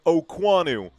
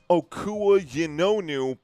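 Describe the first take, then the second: First: The name is said with fewer, blended syllables. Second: The name is said with more syllables, as spelled. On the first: The speaker calls it right. "he pronounces it Okwanu" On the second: The speaker calls it wrong. "I know it's spelled Okua Yinonu"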